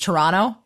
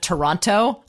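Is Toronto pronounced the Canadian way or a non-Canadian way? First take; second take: Canadian; non-Canadian. First: It is pronounced the Canadian way. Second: It is pronounced a non-Canadian way. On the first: "the way that the Canadians pronounce it" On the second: "instead of"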